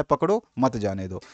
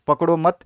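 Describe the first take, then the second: First: पकड़ो, a clear break, then मत जाने दो together; pause after पकड़ो. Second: पकड़ो मत run together, pausing after मत; comma after मत. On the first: Teacher showing students how punctuation works, pause after पकड़ो. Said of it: "विराम का मतलब विराम चिन्ह". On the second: Teacher moving the comma to change meaning, pause after मत. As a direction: join मत onto पकड़ो, then break. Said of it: "और कॉमा लगा दिया". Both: Shown as a demonstration.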